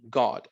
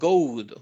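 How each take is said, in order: First: The vowel is short, as in got. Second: The vowel is long, like the letter name. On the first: The speaker calls it right. "Es corto también" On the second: The speaker calls it wrong. "yo no digo"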